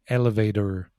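It is said in an American accent.

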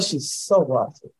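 It is said in a disapproving, negative tone. The trait is criticized. The speaker calls it right. "they don't say it in a great way"

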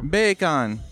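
It is said in a Jamaican accent.

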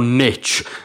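The word is said a non-British way. The speaker calls it wrong.

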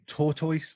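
It is said in a Birmingham accent. "I was saying tortoise because I'm from Birmingham"

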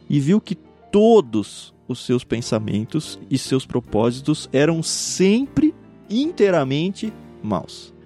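Todos, sempre and inteiramente are strongly emphasized.

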